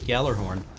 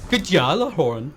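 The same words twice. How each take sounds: First: The first part is said in a plain English way. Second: The first part is said with German-style sounds.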